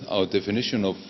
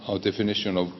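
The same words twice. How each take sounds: The two takes are said the same way.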